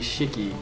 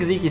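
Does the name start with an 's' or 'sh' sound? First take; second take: sh; s. First: The name begins with an sh sound. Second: The name begins with a plain s sound. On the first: The speaker calls it right. "apparently it's actually Sziky in Hungarian, because like the S-Z is S-H in English" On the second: The speaker calls it wrong. "I think Sziky sounds better"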